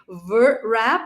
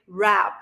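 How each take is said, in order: First: A W sound is pronounced before the word. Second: No W sound is pronounced before the word. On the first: The speaker calls it wrong. "you don't say ver wrap" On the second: The speaker calls it right. "you say wrap. So you don't pronounce W"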